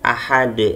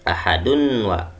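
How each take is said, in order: First: The final d is released with a bounce. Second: The ending flows nasally into the next word. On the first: The reciter stops at the end of the verse. "ahad harus mantul" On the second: The reciter joins it to the next verse. "kalau disambung ahadun wa"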